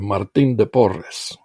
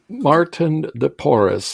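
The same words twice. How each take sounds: First: The name is pronounced the Spanish way. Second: The name is pronounced the English way. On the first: "in Spanish" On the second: "is the English pronunciation"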